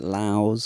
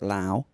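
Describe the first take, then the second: First: The name ends with an s sound. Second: The name ends without an s sound. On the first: The speaker calls it wrong. "there's an S" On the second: The speaker calls it right. "the correct answer is Lao"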